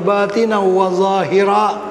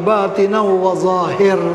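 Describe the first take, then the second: First: The last word ends with an a vowel. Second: The last word ends on the r consonant. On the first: This follows the grammar. "kalau ikut nahu dia" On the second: This makes the line rhyme. "Bagi sama dia punya bunyinya"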